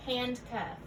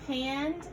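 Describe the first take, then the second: First: Said in the usual way. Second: "Handcuff" in two parts, a clear pause between; split compound. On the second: Shown as a demonstration. Teacher modelling compound parts for learners, "Handcuff" split by a pause. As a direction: say "Handcuff" as two separate little words.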